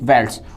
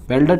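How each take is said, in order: First: The word ends with an s sound. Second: The word ends with a t sound. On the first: The speaker calls it right. "वेल्ड्स होते हैं" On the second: The speaker calls it wrong. "वेल्डट नहीं होता"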